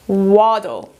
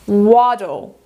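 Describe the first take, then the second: No difference in how they are said.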